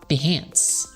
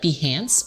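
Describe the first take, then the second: First: The ending sounds like 'enhance'. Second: The ending does not sound like 'enhance'.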